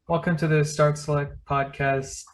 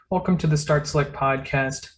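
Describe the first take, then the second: First: It is said flat, with low energy. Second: It is said with lively, high energy.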